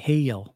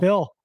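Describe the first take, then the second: First: It is said in a Southern US accent. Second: It is said in a plain accent.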